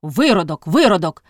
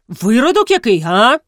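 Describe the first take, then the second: First: Put-on drunken mumble. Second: High, loud affronted question; indignant challenge. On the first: A narrator's reading. Drunk Загнибіда insults Колісник, drunken mumble. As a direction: repeat the insult as if the tongue barely turns. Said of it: "ледве повертаючи язик у роті". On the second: Acted. Колісник challenges Загнибіда's insult, indignant challenge. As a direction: demand it back, swooping up in outrage.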